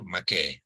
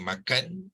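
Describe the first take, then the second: First: The word ends with an -ai sound. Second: The word ends with an -an sound. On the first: This is how people in Kelantan say it. "di Kelantan dikata makai" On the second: This is how people in Kuala Lumpur say it. "Orang Kelantan kalau K K L kita kata makan"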